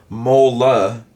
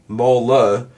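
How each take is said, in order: No difference in how they are said.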